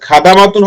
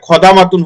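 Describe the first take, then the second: First: The first vowel is an open, unrounded 'a'. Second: The first vowel is a rounded 'o'-like sound. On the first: The speaker calls it wrong. "খাদামাতুন হবে না খদামাতুন হবে?" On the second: The speaker calls it right. "আমরা পড়ছিলাম খ।"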